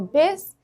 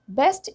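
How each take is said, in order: First: The final t sound is dropped. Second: The final t sound is pronounced.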